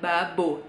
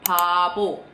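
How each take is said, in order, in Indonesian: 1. Bunyi pertama terdengar seperti b. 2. Bunyi pertama terdengar seperti p. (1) "dibacanya sama mereka nggak babo" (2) "Kalau dia di depan, dia tuh P-nya lebih kedengeran"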